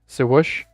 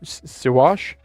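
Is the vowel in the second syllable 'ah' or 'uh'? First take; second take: uh; ah. First: The second syllable has an 'uh' vowel. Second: The second syllable has an 'ah' vowel.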